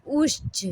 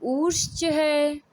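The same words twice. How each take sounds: First: उच्च with the vowel clipped short, one beat; said quickly. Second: उच्च है slow, the vowel of उच्च stretched to two beats; long vowel. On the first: Teacher demonstrating a short one-beat vowel, said quickly. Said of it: "जल्दी से बोला था". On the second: Teacher demonstrating a long two-beat vowel, slow and stretched. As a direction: draw out the vowel in उच्च slowly. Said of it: "ये दीर्घ मात्रिक". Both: Shown as a demonstration.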